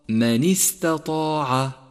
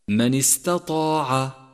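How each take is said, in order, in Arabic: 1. الكسرة بعد النون تُنطق بوضوح. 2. الكسرة بعد النون مختلسة ومسرعة. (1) "والصواب" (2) "فقد يسوء لفظها بسبب السرعة، أي هكذا"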